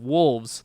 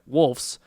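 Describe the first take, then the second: First: It is said with a V sound before S. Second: It is said with an F sound before S. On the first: The speaker calls it right. "There we go, with a V" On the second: The speaker calls it wrong. "I said it wrong again"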